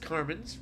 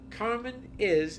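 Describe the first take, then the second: First: The word 'is' is shortened onto the name. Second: The word 'is' is said in full.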